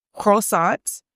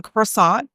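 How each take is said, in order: First: Croissant tried with a French accent, kroh-SAHN; a shaky stab at a French accent on Croissant. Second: Said in the usual way. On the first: Shown as a demonstration. Trying out a French accent for viewers, hesitant French accent. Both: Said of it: "I don't know how to use my French accent".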